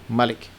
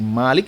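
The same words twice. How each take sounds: First: The first vowel is kept short. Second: The first vowel is drawn out long. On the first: It means king or sovereign. "tanpa ada alif, tidak dibaca panjang" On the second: It means owner. "Dibaca panjang"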